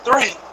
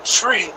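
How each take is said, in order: First: The word begins with a soft 'th' sound. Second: The word begins with a hard 't' sound. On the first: "instead of saying three" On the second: "you're gonna say tree"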